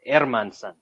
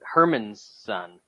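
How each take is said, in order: First: The name begins with a vowel, no H sound. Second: The name begins with a clear H sound. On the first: The speaker calls it right. "the correct pronunciation of Jack Hermanson" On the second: The speaker calls it wrong. "he's not Herman's son"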